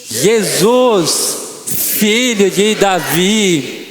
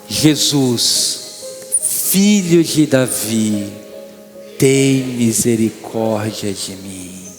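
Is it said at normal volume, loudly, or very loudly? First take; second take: very loudly; normal volume. First: It is said very loudly, with full force. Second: It is said at normal volume.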